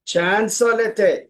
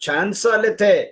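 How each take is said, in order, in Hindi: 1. अंत का 'ast' घटकर एक स्वर रह जाता है। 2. अंत का 'ast' घटकर एक स्वर रह जाता है।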